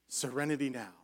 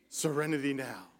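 No difference in how they are said.

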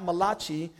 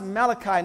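First: The name has an Italian-sounding pronunciation. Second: The name has a plain, non-Italian pronunciation. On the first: The speaker calls it wrong. "not Malachi. He was Hebrew and not Italian" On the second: The speaker calls it right. "it's pronounced Malachi"

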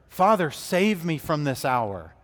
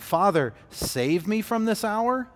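First: It is said as a falling statement. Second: It is said as a rising question.

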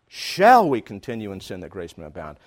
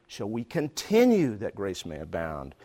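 First: The stress falls on the word 'shall'. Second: The stress falls on the word 'continue'. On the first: It questions whether this should be done at all. "should I really be doing this?" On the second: It asks why the behaviour keeps going on. "why do I keep doing this?"

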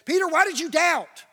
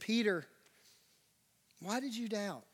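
First: The question sounds harsh and condemning. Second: The question sounds soft and gentle. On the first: The doubter is being blamed. The speaker calls it wrong. "It's not this moment where he's condemning him" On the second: The doubter is being cared for. The speaker calls it right. "you got to recognize the tone of what Jesus is saying here"

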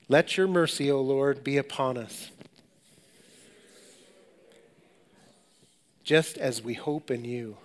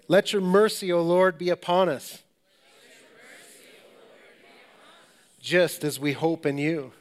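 First: It is said at a softer, normal volume. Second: It is said a little louder.

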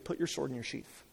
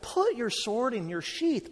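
First: It sounds calm and patient. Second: It sounds impatient and exasperated.

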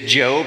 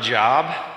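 First: The vowel is long, rhyming with robe. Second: The vowel is short, rhyming with rob. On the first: This is the man's actual name. The speaker calls it right. "His name is Job" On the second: This is the ordinary word for work. The speaker calls it wrong. "not Job"

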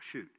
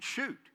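First: It is said as a mild, disappointed exclamation. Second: It is said as a forceful, emphatic command. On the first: A casual expression of mild annoyance. The speaker calls it wrong. "not like shoot, you know, oh, shoot. Not like that" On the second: An order to fire with determination. The speaker calls it right. "Man, draw that thing back and shoot"

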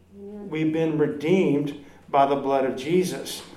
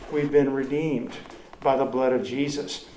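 No difference in how they are said.

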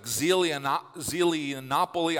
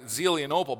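First: The name ends with the sound 'nopoly'. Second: The name ends with the sound 'nople'. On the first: The speaker calls it wrong. "But for me, it was like Zelianopoly" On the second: The speaker calls it right. "It's Zelianople, right?"

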